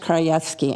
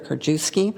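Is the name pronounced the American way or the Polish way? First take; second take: Polish; American. First: The name is said with a Polish pronunciation. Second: The name is said with an American pronunciation. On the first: This is how people in Poland say it. "in Poland it's" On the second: This is how people in the United States say it. "most of the people here in the United States do pronounce it"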